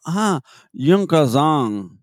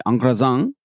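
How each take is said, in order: First: UN CROISSANT alargado, con nasales muy francesas; francés corregido. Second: UN CROISSANT como "an cruasán"; francés de español. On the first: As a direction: draw out "un croissant" slowly, imitating the French woman. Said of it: "al cabo de cinco minutos me dijo". ("un croissant" lento y nasal, imitando a la francesa) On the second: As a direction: say "un croissant" with imperfect French sounds. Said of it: "ahora voy a modificar porque no debía ser así". ("un croissant" en francés aproximado, de español) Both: Retold or imitated.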